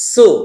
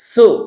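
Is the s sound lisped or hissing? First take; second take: hissing; hissing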